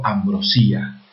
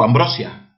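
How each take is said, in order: First: Ambrosía with stressed í, split from the final a. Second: Ambrosia with stress on BRO, ending in a joined -sia. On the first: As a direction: say Ambrosía as am-bro-SÍ-a. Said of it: "yo digo Ambrosía". (Ambrosía con la fuerza en la í: am-bro-SÍ-a) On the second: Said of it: "yo no digo Ambrosia". (Ambrosia con la fuerza en BRO: am-BRO-sia) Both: Shown as a demonstration.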